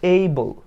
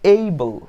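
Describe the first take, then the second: The two takes are said the same way.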